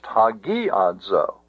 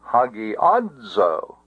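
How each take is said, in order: First: The stress is on the syllable gi. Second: The stress is on the syllable a. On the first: The speaker calls it wrong. "It cannot be pronounced hagiadzo" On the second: The speaker calls it right. "The accent can be placed on the ah, and it can only be an acute accent"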